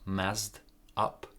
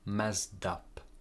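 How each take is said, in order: First: The two words are said separately, unlinked. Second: The two words are linked together smoothly. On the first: The speaker calls it wrong. "So not messed up" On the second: The speaker calls it right. "messed up connection here"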